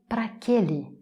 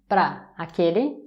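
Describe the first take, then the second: First: Pra and aquele fuse into one word. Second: Para shrinks to one syllable, pra. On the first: "ça peut devenir praquele" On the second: "ça va devenir pra aquele"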